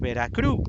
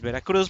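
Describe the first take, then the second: First: The u is lengthened and the final z dropped. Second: The final z is pronounced, the u is short. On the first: This is how locals say it. "extend the U for longer and will not pronounce the Z at the end" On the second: This is the full standard name. "the full name is Veracruz"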